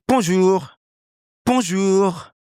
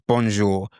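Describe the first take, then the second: First: High-pitched French bonjour; native French accent. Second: Bonjour in a British accent; English-accented French. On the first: Teacher adopting Clément's character, native French accent. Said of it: "Can you hear the difference?". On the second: Teacher contrasting with the French take, English-accented French. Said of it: "So the bonjour is English". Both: Shown as a demonstration.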